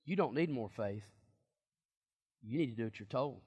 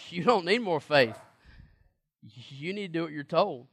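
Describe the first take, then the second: First: Soft, low-key delivery of Jesus' words; quietly quoting Jesus. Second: Said in the usual way. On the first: Shown as a demonstration. Preacher quietly voicing Jesus to the disciples, soft. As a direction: let it drop, almost under your breath. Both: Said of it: "Jesus says".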